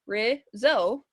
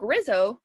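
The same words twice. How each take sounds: First: RIZZO split into two separate beats; syllable by syllable. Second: Said in the usual way. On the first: Shown as a demonstration. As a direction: sound out RIZZO as "riz, zo". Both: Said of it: "Remember how we check".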